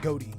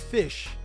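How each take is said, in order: First: The name is pronounced like the word goatee. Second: The name is pronounced like the word fish. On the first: "even Konami calls them goatee" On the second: "it is enunciated fish"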